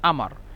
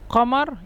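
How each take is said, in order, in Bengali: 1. শব্দটি কণ্ঠনালী-রোধী ধ্বনি দিয়ে শুরু হয়। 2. শব্দটি একটি গভীর q ধ্বনি দিয়ে শুরু হয়। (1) "আমার বলে" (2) "কমারকে"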